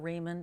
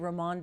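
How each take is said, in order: First: The surname is pronounced in an American way. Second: The surname is pronounced with a Latin flair. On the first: "is like the American pronunciation" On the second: "give it a little more of a Latin flair"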